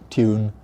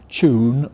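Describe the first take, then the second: First: It begins with a ty sound. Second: It begins with a ch sound. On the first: This is the older standard form. "what was the previous standard" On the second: This is the newer, increasingly acceptable form. "this ch pronunciation"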